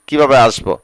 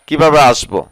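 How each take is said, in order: No difference in how they are said.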